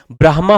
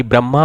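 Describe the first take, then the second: First: ब्रह्मा said with h sounded before m; correct form "brahma". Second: ब्रह्मा said "bramma", with no h; wrong form "bramma". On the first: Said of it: "ब्रह्मा होता है". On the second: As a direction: drop the h and hold the m in ब्रह्मा. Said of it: "ना कि ब्रह्मा होता है". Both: Shown as a demonstration.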